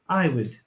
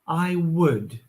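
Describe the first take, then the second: First: The word would is short, fast and reduced. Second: The word would is full and strongly emphasized. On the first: "It's really short" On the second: "this word has a lot of emphasis on w"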